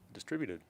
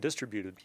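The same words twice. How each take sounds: First: The stress falls on the expected syllable. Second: The stress falls on an unexpected syllable. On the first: The speaker calls it right. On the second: The speaker calls it wrong.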